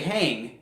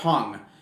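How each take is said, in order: First: The vowel sounds like the one in 'hat'. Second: The vowel sounds like the one in 'hut'. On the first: The speaker calls it wrong. "most people would say hang because that's how it's it's written" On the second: The speaker calls it right. "You actually pronounced it correctly"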